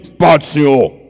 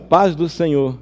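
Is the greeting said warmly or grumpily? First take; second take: grumpily; warmly. First: It is said in a sulky, grumpy tone. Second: It is said in a warm, friendly tone.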